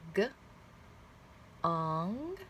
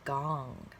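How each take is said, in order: First: The word is said slowly, split into two parts. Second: The word is said quickly as one blended unit. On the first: "Let's read it slowly" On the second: "Read it fast"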